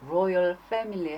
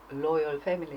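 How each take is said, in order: First: The word begins with an R sound. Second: The word begins with an L sound. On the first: The speaker calls it right. "R이 들어가는데" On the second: The speaker calls it wrong. "저는 그것도 로열 패밀리 뭐 이런 식으로 발음할 때가 많았거든요"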